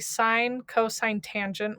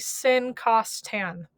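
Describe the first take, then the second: First: The names are spoken as full words. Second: The names are clipped to short abbreviated forms. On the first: The speaker calls it right. "You still say sine, cosine, tangent when you read these" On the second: The speaker calls it wrong. "do not say sin, cos, tan. That is wrong"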